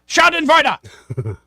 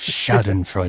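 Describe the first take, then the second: First: It is said loudly and forcefully. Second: It is said softly and quietly. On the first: "Can you say it just a little less aggressively" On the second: "say it real quietly"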